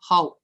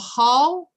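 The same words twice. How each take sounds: First: The word is said on a very low tone. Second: The word is said on a high tone. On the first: "the high tone becomes low" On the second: "the high tone becomes low"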